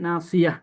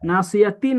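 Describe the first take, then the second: First: The word ends with a plain 'a' sound. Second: The word ends with a 'ti' syllable. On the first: The reciter stops at this word. The speaker calls it right. "পড়বো কি নাসিয়া" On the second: The reciter continues without stopping. The speaker calls it wrong. "নাসিয়াতি না পড়া"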